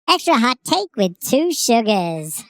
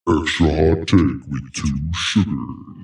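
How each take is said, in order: First: It is said in a high-pitched voice. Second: It is said in a deep voice.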